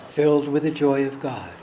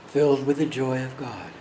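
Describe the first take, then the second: The two takes are said the same way.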